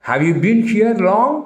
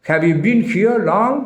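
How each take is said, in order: Both takes have the same delivery.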